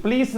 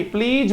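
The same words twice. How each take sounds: First: प्लीज ending in a hissed "s", "plees"; wrong final S. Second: प्लीज ending in a voiced "j", "pleej"; final J sound. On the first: Teacher shows pupils the mistake, "plees" with S. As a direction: say प्लीज with a voiceless "s" at the end. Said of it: "प्लीज नहीं भाई". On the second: Teacher corrects pupils, "pleej" with a voiced ending. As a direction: voice the end of प्लीज as a buzzing "j". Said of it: "जय का sound आएगा". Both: Shown as a demonstration.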